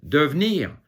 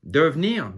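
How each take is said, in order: The two takes are said the same way.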